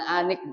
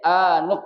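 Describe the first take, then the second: First: The second syllable has the vowel i. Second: The second syllable has the vowel u. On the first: The speaker calls it wrong. "bukan anik" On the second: The speaker calls it right. "dibacanya anuk"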